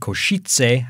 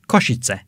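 First: The name is said with a non-Slavic, anglicized pronunciation. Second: The name is said with a native Slavic pronunciation. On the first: Someone else said it this way. "He said Košice" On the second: This is the speaker's own way of saying it. "I say Košice"

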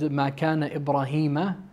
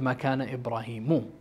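First: The final vowel of the name is 'a'. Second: The final vowel of the name is 'u'. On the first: The speaker calls it wrong. "I also said" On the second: The speaker calls it right. "instead of"

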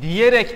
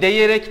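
First: The first vowel sounds like a narrow 'i'. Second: The first vowel sounds like an open 'e'. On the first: The speaker calls it right. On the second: The speaker calls it wrong. "demezsiniz değil mi arkadaşlar?"

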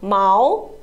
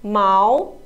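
No difference in how they are said.

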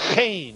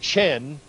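First: The first sound is a rough guttural. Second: The first sound is soft, not guttural. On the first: The speaker calls it right. "it's chen. It's the guttural pronunciation" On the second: The speaker calls it wrong. "It isn't chen"

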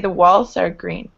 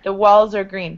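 First: The end of 'walls' is a hissing S sound. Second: The end of 'walls' is a buzzing Z sound. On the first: The speaker calls it wrong. "You wouldn't say the walls are green. You don't need to make that light S sound" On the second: The speaker calls it right. "It's a Z"

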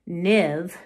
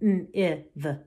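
First: The word is said smoothly as one unit. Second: The word is split into separate sound parts. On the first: The reader recognizes the word at once. The speaker calls it right. "look at a word, even if it's a nonsense word, and say niv" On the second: The reader is still sounding the word out. The speaker calls it wrong. "instead of going n-iv"

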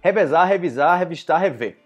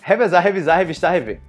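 First: The words are said at a slower pace. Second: The words are said at a faster pace.

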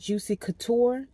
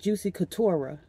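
First: The name ends without an extra vowel. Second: The name ends with an added ah vowel. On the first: The speaker calls it right. "Instead of saying Juicy Couture" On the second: The speaker calls it wrong. "She put an A at the end"

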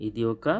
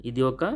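Both takes have the same delivery.

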